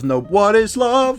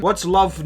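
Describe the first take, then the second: First: "what is love" stretched out, higher than usual; incredulous challenge. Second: Said in the usual way. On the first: Acted. Throwing the texter's question back, "what is love" drawn out incredulously. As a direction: draw out "what is love" slowly and pointedly.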